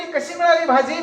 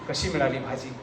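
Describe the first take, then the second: First: Much higher wife calling out; wife's call, high. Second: Soft wife's call. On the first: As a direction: call out from inside the house, high. (बायकोची उंच हाक) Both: Acted. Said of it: "बायको ओरडली".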